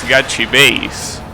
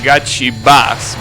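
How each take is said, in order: First: The last word has a long 'a' like 'face'. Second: The last word has a short 'a' like 'mass'. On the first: The speaker calls it right. "apparently it's" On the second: The speaker calls it wrong. "I always pronounce it"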